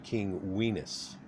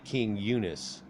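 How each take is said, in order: First: The name starts with a 'wee' sound. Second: The name starts with a 'you' sound. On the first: This is closer to the original pronunciation. "it's really more of a King Weenus" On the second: This is the modern way of saying it. "when we say King Eunice"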